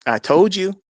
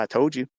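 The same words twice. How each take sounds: First: Higher, louder gloating repeat; emphatic vindicated declaration; triumphant. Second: Said in the usual way. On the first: Retold or imitated. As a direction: crow it with pitch jumping up.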